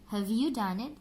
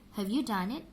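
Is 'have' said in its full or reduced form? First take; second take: reduced; reduced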